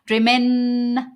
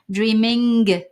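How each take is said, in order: First: The final g is dropped, ending on n. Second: The final g sound is pronounced. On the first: The speaker calls it right. "Dreamin, N. Et la, la langue reste un petit peu sur le N" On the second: The speaker calls it wrong. "On dit pas euh, dreaming. Ça, c'est très français"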